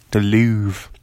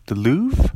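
First: Louvre said with a firm fall; settled Louvre. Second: Louvre said as a rising question. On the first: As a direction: land "Louvre" flatly, decided. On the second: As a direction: try "Louvre" with a doubtful upward tune. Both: Shown as a demonstration. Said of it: "I can't remember how to say that".

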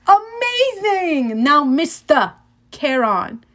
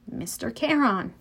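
First: Slow, high mock praise in British accent; strange British-ish accent. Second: Said in the usual way. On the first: A narrator's reading. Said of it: "British maybe".

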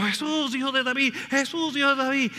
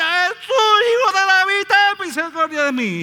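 First: High pleading call of the blind men; crying out. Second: Much higher, louder pleading cry; desperate shout. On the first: Blind men crying out to Jesus, pleading call. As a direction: call out for Jesus over the crowd. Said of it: "están gritando". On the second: Blind man shouting louder over the crowd, desperate cry. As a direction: cry out with everything you have. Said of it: "más grita". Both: Retold or imitated.

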